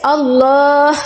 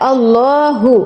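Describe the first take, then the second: First: The word ends abruptly without a final vowel. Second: The word ends with a final 'u' vowel. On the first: The reader stops at this word. "আল্লাহর জায়গায় যদি আমরা ব্রেক করি তাহলে আল্লাহ এভাবে উচ্চারণ হবে" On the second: The reader continues without stopping. "আর যদি আমরা এখানে ব্রেক না করি তাহলে আল্লাহু"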